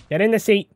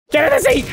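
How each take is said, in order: First: Said in the usual way. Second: High, loud command at the dummy; frustrated shout. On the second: Real, not acted. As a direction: yell it at him, out of patience. Dummy won't sit, frustrated.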